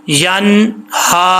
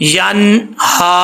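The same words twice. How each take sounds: The two takes are said the same way.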